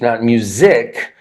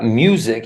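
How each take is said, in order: First: The stress is on the second syllable. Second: The stress is on the first syllable. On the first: The speaker calls it wrong. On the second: The speaker calls it right. "a word with two syllables is stressed on the first syllable"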